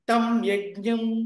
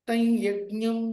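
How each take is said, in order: First: The first word ends in a full m sound. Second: The first word ends in a nasal glide. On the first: The speaker calls it wrong. "తం యజ్ఞం అని చదవకూడదు" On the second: The speaker calls it right. "తై యజ్ఞం అని చదవాలి"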